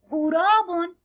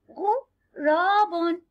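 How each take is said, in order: First: Said in the usual way. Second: Drawn-out غراب, sounding out each syllable for the class; slow syllable demo. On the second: Shown as a demonstration. Teacher to young pupils, sounding out غراب very slowly. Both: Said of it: "انظروا إلى هذا الغراب".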